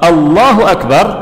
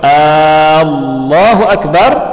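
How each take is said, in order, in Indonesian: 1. Huruf vokal pertamanya pendek. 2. Huruf vokal pertamanya dipanjangkan. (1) "artinya Allah Maha Besar" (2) "artinya apakah Allah Maha Besar?"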